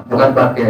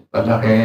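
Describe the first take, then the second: No difference in how they are said.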